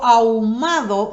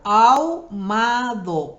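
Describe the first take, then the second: First: Said in the usual way. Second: "Ahumado" slowly, syllable by syllable, a-hu-ma-do; split into syllables. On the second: Shown as a demonstration. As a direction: stretch out "Ahumado", marking each syllable. ("Ahumado" dicho despacio, sílaba por sílaba) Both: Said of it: "miren cómo separo".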